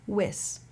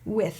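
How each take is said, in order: First: The word ends in an s sound. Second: The word ends in a th sound. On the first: The speaker calls it wrong. "Right now we're getting more like whis" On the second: The speaker calls it right. "it needs to get between your teeth"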